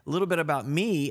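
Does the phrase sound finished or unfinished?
unfinished. The phrase is left open, leading into more. Facts about oneself are about to follow. "You took it like I was saying. A little bit about me and then change the subject"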